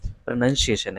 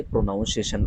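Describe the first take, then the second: First: "प्रोनाउंसिएशन" with short pruh, then NUN; unstressed first syllable in "प्रोनाउंसिएशन", no "noun"; correct pronunciation. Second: "प्रोनाउंसिएशन" with NOUN in the middle; common mispronunciation. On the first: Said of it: "लेकिन इसका सही उच्चारण". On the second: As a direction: say "प्रोनाउंसिएशन" as pro-noun-see-AY-shun. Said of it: "कुछ लोग इसे ... बोल देते हैं". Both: Shown as a demonstration.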